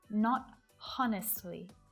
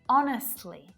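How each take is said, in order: First: The word starts with an audible H sound. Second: The word starts with no H sound. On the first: The speaker calls it wrong. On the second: The speaker calls it right.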